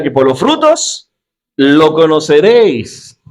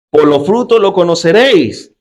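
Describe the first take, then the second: First: «frutos» y «conoceréis» dichos lentos y marcados, palabra por palabra; recítalo despacio, cargando el peso en «frutos»; lectura pausada. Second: Said in the usual way. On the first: Shown as a demonstration. (lento y solemne, subrayando «frutos»)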